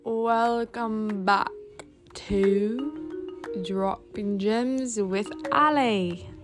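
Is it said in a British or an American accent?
British. It is said in a put-on British accent.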